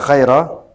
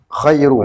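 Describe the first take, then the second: First: The word ends in an a vowel. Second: The word ends in a u vowel. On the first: The word is the object of an unstated verb of praising. "Bisa dinasabkan, dibaca khaira" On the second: The word is the predicate of an unstated subject, giving more honor. "Boleh juga rafa, dibaca dhamma"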